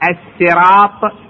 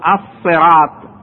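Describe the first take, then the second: First: The word begins with a plain s sound. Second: The word begins with an emphatic s sound. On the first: "بالسين" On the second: "وبالصاد"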